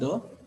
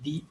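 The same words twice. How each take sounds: First: The word is said with a short 'uh' vowel. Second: The word is said with a long 'ee' vowel. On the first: The speaker calls it wrong. "this is not the" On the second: The speaker calls it right. "you people have to say it as the earth"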